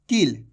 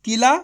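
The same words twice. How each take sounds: First: "किल" cut short with no aa, lower in pitch; short ending. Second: "किला" with the final ला stretched long and a little louder; long aa drawn out. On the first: Teacher contrasts "किल" for pupils, clipped short. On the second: Teacher contrasts "किला" for pupils, long final aa. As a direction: draw out the ला in "किला". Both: Shown as a demonstration. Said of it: "फर्क समझ में आ रहा है?".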